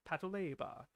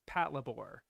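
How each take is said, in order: First: It is said with added vowels, Japanese style. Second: It is said as an English word, no added vowels. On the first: The speaker has watched the show. "patrol labor, Patoleba" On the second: The speaker only read the written title. "that's just like how you'll pronounce it"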